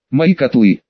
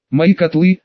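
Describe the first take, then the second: First: МОИ said with a falling, mildly louder protest; mild indignant outcry down the corridor; indignant loud cry. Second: МОИ rising in a mild pained wail; lightly moaned heartbreak over the cauldrons. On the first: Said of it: "возмутился Хара на весь коридор". («Мои котлы» — возмущённый возглас) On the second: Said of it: "с болью в голосе застонал Поттер". («Мои котлы» — со стоном боли) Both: A narrator's reading.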